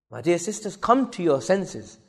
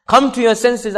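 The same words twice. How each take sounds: First: Soft, slow appeal; subdued plea. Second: Higher, forceful appeal; raised exhortation. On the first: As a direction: plead slowly, holding the volume down. First, softer take of plea. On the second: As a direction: urge the congregation with a raised voice. Repeats plea with raised voice. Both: Real, not acted.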